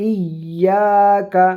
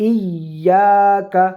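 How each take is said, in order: Both takes have the same delivery.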